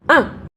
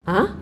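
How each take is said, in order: First: The pitch drops sharply from high to low. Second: The pitch rises like a surprised question. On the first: "turun ke bawah itu menghentak" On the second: "seperti kita lagi kayak heran gitu loh"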